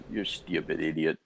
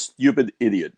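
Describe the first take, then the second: First: Imitated dad, low and soft; lightly voiced dad, dropped low and muted under the breath; dad's put-down. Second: Imitated dad, louder; dad's put-down. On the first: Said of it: "my dad just used to look at me and goes". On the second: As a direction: quote dad's insult with more punch, lightly voiced. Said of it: "But he says".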